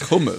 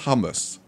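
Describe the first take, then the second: First: The word starts with a throaty ch sound. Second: The word starts with a plain h sound. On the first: The speaker calls it right. "I'm saying it with a bit of a ch" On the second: The speaker calls it wrong. "who says hummus?"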